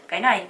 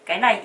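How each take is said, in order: Both takes have the same delivery.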